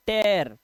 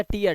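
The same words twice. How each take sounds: First: टेयर as "tair", with an open "e"; correct "ay-a" vowel. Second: टीयर as "tee-ar", starting on "ee"; wrong "ee-a" vowel. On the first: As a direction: say टेयर to rhyme with "bear". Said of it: "अब देखो एया का उच्चारण". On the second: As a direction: misread it as टीयर, like a teardrop. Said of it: "इसे टीयर नहीं पढ़ता". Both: Shown as a demonstration.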